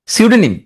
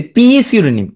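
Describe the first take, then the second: First: Said in the usual way. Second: পি সিউডোনিম with the silent P said as a long "pee"; silent P voiced. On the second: Shown as a demonstration. Teacher giving a spelling trick, silent P sounded before সিউডোনিম. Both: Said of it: "বলতে হবে পি সিউডোনিম".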